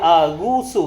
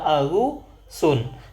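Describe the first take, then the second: First: The word ends in a plain u vowel. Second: The word ends in an added n sound. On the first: The speaker calls it right. "Jadi Agusu" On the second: The speaker calls it wrong. "bukan Agusun"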